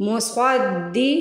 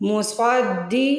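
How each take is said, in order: Both takes have the same delivery.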